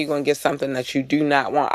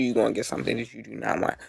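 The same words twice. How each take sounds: First: Said in the usual way. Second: Menacing low warning. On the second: Real, not acted. Repeated warning, fast and quiet.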